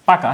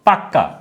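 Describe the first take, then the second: First: The k sound is short and single. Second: The k sound is doubled and held longer. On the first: "যদি বলা হয় পাকা" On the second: "দ্বিত্ব হবে বা দুইবার উচ্চারিত হবে, এবং সেটাকে কিন্তু জোর দিবে"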